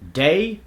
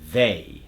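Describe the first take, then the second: First: It begins with a D sound. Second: It begins with a voiced TH sound. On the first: The speaker calls it wrong. "common words that use the D substitution" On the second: The speaker calls it right. "the way we want to say it in an American accent"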